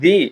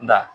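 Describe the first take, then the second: First: The word ends with an 'ee' vowel. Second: The word ends with an 'uh' vowel. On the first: It comes before a vowel sound. "এটার উচ্চারণ কি দি" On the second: It comes before a consonant sound. "না দা?"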